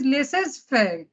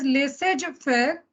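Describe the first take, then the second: First: The word is said the French way. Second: The word carries a local native-language accent. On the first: The speaker calls it right. "which is actually a French word" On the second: The speaker calls it wrong. "slightly a mother tongue influence"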